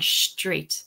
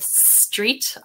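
First: The word begins with an sh sound. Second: The word begins with a plain s sound. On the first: "It's like I'm saying shh" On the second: "instead of street"

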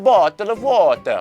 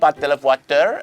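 First: It is spoken with an Italian accent. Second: It is spoken with a Filipino accent. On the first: "เราไปเจอคนอิตาลีครับ" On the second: "ก็มีชาวฟิลิปปินส์"

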